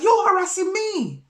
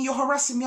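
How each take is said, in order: First: YOU'RE hit high and loud, then falling; indignant retort on YOU'RE. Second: Higher-pitched mock complaint, even loudness; imitated accusation. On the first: Retold or imitated. Turning the neighbour's accusation back on her, loud stress on YOU'RE. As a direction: throw it back, punching the word YOU'RE. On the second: Neighbour accusing the person confronting her, imitated complaint. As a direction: repeat it as a whingeing protest.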